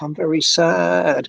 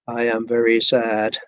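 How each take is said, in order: First: It is acted with lively intonation and stress. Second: It is read flatly with little intonation. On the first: The speaker calls it right. "They're doing a little bit of acting" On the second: The speaker calls it wrong. "they don't just say"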